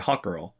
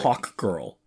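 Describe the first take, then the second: First: The two words are said fast and run together. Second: The two words are said slowly and kept apart. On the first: The name can be misheard as another phrase. The speaker calls it wrong. "You can't say Hawk Girl" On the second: The name is heard clearly and not misheard. The speaker calls it right. "Because you can't really say that fast"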